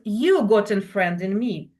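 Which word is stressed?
you. The stress falls on the word you. You, not somebody else, have a friend in me. "Not somebody else, but you got a friend in me"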